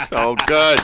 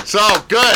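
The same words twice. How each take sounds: First: Said in the usual way. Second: Higher and louder, rising delight; excited praise. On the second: Real, not acted. Host cheers the poet's finished poem, higher and louder. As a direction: lift it up with real glee.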